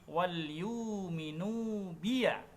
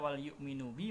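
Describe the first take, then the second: First: The phrase ends with an added voweled 'ya'. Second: The phrase ends on a short 'bi'.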